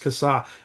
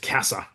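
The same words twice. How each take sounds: First: The surname is said the family's own way. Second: The surname is said the usual Australian way. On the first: "no, no, it's Cassar" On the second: "in Australia, we pronounce that surname as Cassar"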